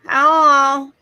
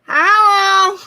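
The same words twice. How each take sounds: First: It is said nasally, with normal airflow. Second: It is said nasally, with lots of air.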